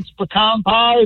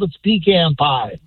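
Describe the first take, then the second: First: Pecan is said the northern US way. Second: Pecan is said the southern US way.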